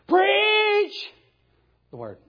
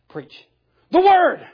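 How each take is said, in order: First: The stress falls on the word preach. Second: The stress falls on the word word. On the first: The act of preaching is what matters most. The speaker calls it wrong. "Preachers like to read it like this" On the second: The message itself is what matters most. The speaker calls it right. "The thing that matters is not preaching, but the thing is the word"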